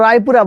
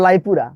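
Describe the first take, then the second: First: রায়পুরা said with an initial R; correct name. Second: লাইপুরা with L in place of R; local mispronunciation. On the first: Shown as a demonstration. Teacher correcting locals on the town's name, correct pronunciation. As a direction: start রায়পুরা on a clear R. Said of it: "নাম হলো রায়পুরা". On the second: Retold or imitated. Teacher mimicking locals naming their town, mispronounced. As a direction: turn the R into L, লাইপুরা. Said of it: "বলেন লাইপুরা".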